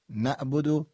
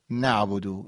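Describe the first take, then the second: First: نعبدو with no ayn, pitched up on the open vowel; ayn dropped. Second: نعبدو with a full throaty ayn; ayn pronounced. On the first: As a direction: say نعبدو Persian-style, without the ayn. (نعبدو بدون عین) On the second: (نعبدو با عین حلقی) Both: Shown as a demonstration. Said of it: "این دومی درسته".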